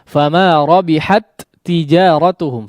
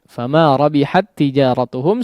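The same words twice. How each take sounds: First: The two t sounds are pronounced separately. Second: The two t sounds merge into one doubled t. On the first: The speaker calls it wrong. "Kalau tidak diizharkan, bunyinya akan seperti apa?" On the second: The speaker calls it right. "seolah huruf yang pertama yang bertanda sukun itu sudah tidak ada"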